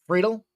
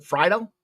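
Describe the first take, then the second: First: "Friedel" with first vowel as in "free", higher; FREE-dul pronunciation. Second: "Friedel" with first vowel as in "fry", questioning; FRY-dul pronunciation. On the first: Host unsure of a player's name, tries "Friedel" as FREE-dul. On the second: Host unsure of a player's name, tries "Friedel" as FRY-dul. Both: Real, not acted. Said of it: "Can't remember which one it was".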